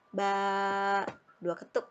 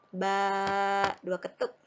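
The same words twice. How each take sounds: No difference in how they are said.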